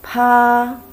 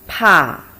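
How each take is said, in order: First: It is said with the first tone. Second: It is said with the fourth tone. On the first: "first tone" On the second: "Fourth tone"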